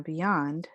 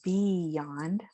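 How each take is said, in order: First: Beyond with a short first syllable and stressed YOND; natural beyond, weight on the end; correct pronunciation. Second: Beyond split into a long, stretched BEE and YOND; overdone, slow two-part beyond; wrong pronunciation. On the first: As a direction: say beyond lightly at first, leaning on the second syllable. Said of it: "accent mark on the second syllable". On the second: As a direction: draw out beyond slowly with a full first vowel. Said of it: "it's not beyond". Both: Shown as a demonstration.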